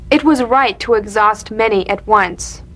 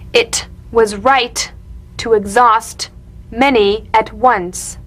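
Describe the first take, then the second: First: It is said naturally, focused on the meaning. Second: It is said slowly with exaggerated tapped sounds.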